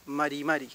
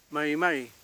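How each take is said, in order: First: MARI MARI with a light Spanish tap; wrong tapped r. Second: MARI MARI with untrilled Mapuche r; correct Mapuche r. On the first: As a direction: tap each r once in MARI MARI. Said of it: "Tampoco digo". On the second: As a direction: greet with MARI MARI, English-like r. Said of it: "cuando yo saludo digo". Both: Shown as a demonstration.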